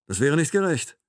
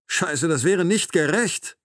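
First: Raised, indignant objection; indignant protest. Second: Slow, high, indignant repeat; angry outburst. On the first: Captor argues against her release, indignant but contained. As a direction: object firmly, holding back the outburst. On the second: Captor slaps the table over the injustice, angry and emphatic. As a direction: drive each word home angrily. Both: A narrator's reading.

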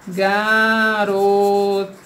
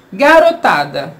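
First: "Garotada" very slow, every syllable drawn out; slow chant-like sounding out of "Garotada"; stretched syllables. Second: Said in the usual way. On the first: Shown as a demonstration. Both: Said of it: "Vamos separar essa palavra em sílabas".

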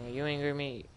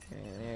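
First: Are you angry at me? asked with weight on angry; mock question. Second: You're angry at me. said softer, dropped low; mock answer. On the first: Player teasing angry game characters, mock question stressing angry. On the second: Player answering his own teasing question, a soft lower mock reply. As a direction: answer yourself under your breath, lower and softer.

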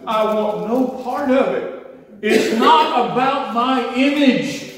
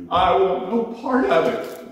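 First: High, loud, half-laughing cry; retold fervent prayer, high, loud and slowed; fervent plea. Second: High, louder fervent cry; retold fervent prayer, higher and louder; fervent plea. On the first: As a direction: renounce it with a joyful break. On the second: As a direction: reject it outright, voice rising high. Pleading prayer.

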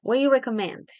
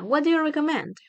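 First: "do" almost dropped, running "What" into "you"; reduced form with "do" nearly silent. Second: Said in the usual way. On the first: Shown as a demonstration. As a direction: say "What do you" as quick "wha-you". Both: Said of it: "Ese do aquí ya casi no suena".

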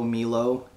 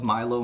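First: Milo with an "ee" sound: MEE-loh; alternative pronunciation. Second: Milo with a long "eye": MY-loh; first pronunciation. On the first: Host loves the drink whatever its name, MEE-loh for Milo. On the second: Host loves the drink whatever its name, MY-loh for Milo. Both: Shown as a demonstration. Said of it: "I don't know the actual pronunciation".

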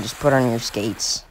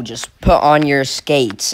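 First: Softer and lower, giving up; a deflated, quiet repeat; resigned mutter. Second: Slow and firm, each word leaned on; a deliberate, emphatic order; firm, slow demand. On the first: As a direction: say it under your breath, tired of repeating. Repeats the same advice, resigned. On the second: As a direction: spell it out like a fed-up coach. Tells the shoe skater what to do. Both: Real, not acted.

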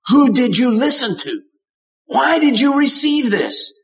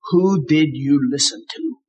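First: Pressing question. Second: Said in the usual way. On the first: Retold or imitated. God pressing Adam, higher and more urgent. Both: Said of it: "What he means is".

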